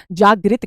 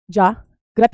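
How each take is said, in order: First: जागृत said "jaa-grit", with short 'i'; contrasted pronunciation. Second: जागृत said "jaa-grat", with 'a'; slow, split "JAA... GRAT" for जागृत; contrasted pronunciation. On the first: (जागृत में 'ग्रि' की ध्वनि) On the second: (जागृत को धीरे से 'जाग्रत' बोलना) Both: Shown as a demonstration. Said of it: "ना कि जागृत कहते हैं".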